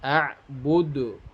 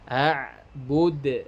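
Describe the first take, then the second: First: It ends with an added u vowel. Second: It ends on a bounced d with no vowel. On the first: The speaker calls it wrong. "tidak boleh" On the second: The speaker calls it right. "dalnya dipantulkan"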